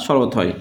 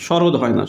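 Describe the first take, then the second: First: শরৎ ending on a voiceless t; final t. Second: শরৎ mispronounced as shorod; wrong final d. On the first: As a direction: say শরৎ as shorot, with a t. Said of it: "শরৎ হয় না". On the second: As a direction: end শরৎ on a voiced d, the wrong form. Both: Shown as a demonstration.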